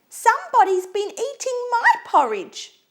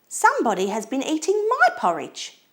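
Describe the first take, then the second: First: It is said in a high, squeaky voice. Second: It is said in a sweet, low voice.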